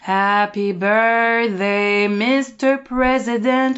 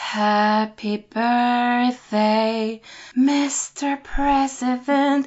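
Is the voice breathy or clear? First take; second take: clear; breathy. First: The voice is clear, with no air escaping. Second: The voice is breathy, with air escaping. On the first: "ta voix très claire" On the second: "t'as du souffle qui sort oui"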